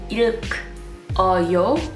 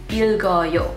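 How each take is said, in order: First: Both final consonants stay in the first syllable. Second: The second final consonant moves to the next syllable. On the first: The speaker calls it wrong. "you don't pronounce it as 읽어요" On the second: The speaker calls it right. "you pronounce it as 읽어요. ... second final consonant is resyllabified"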